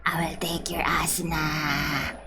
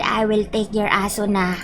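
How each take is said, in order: First: Low, soft near-whisper; hushed mock threat. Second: Said in the usual way. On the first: Streamer menacing Kirito over a scam, hushed mock threat. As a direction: mutter the threat under your breath. Repeats the threat under breath.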